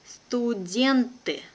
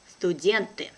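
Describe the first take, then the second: First: Slow and careful, drawn out for learners; teacher's careful slow reading. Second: Brisk, natural native speed; quick native pace. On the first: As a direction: spell it out slowly for the class. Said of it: "one first time will be slow". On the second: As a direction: say it fast like a native. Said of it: "second time will be quickly, like a native". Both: Shown as a demonstration.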